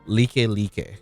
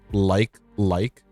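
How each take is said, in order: First: The vowels sound like 'lee-keh lee-keh'. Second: The vowels sound like the English word 'like'. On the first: This is how locals in Hawaii say it. The speaker calls it right. "In Hawaii, it's pronounced like like. ... The I is the E, the E is the A" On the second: This is how mainland speakers read the spelling. The speaker calls it wrong. "a lot of like continental U S ends up pronouncing it is like like because the word like is spelled like that"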